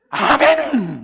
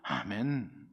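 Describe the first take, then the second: First: It is said loudly, with strong energy. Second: It is said flatly, without energy.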